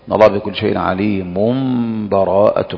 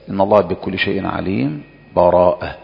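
First: The words run straight on with no break. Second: A brief silent break without breath before the last word. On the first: The two passages are joined as one. "والوجه الثالث الوصل" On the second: The recitation briefly halts without ending. "الوجه الثاني السكت"

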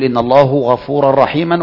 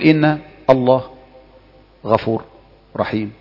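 First: The word endings carry full case vowels. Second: The word endings are silent, without case vowels. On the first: The speaker's knowledge of grammar is exposed. "لا انطقها بالتشكيل" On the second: The speaker hides any grammar mistakes. "سكن تسلم"

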